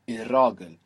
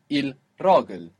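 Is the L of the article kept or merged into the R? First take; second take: merged; kept. First: The L turns into a doubled R. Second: The L is heard clearly before ragl. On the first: "if you say it quickly" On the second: "if you say it slowly"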